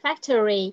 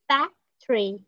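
First: The word is said with three full syllables. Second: The word is said with only two syllables. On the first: The speaker calls it wrong. "Không phải factory" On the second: The speaker calls it right. "có hai âm thôi cho cô"

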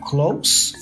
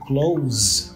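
First: The word ends with an S sound. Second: The word ends with a Z sound. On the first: It is the adjective meaning near. "nouns and adjectives with S, you pronounce the S as an S" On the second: It is the verb meaning to shut. "the verb close with a Z sound"

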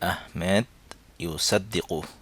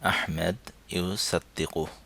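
Both takes have the same delivery.

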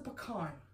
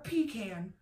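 First: Pecan is not said the northern way. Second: Pecan is said the way northerners say it. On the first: The speaker calls it right. "You're saying it wrong. It is a pecan" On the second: The speaker calls it wrong. "Not a pecan"

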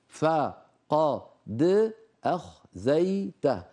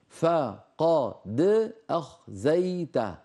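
The two takes are said the same way.

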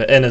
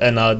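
First: The final vowel is short. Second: The final vowel is lengthened. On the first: The speaker calls it right. "ene zamiri bu şekilde okunur" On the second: The speaker calls it wrong. "Ena değildir"

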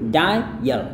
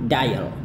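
First: The word is said slowly and carefully. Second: The word is said smoothly and fluently.

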